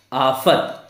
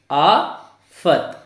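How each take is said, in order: First: Said in the usual way. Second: आफत split very slowly: aa, pause, fat; sounded out. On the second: Shown as a demonstration. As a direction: break आफत in two with a long gap. (आफत को आ और फ़त में तोड़कर बोलें) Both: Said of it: "अब इसको हम कैसे पढ़ेंगे?".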